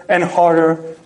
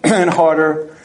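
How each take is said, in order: Both takes have the same delivery.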